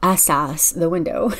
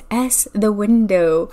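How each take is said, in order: First: The stress is on the second syllable. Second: The stress is on the first syllable.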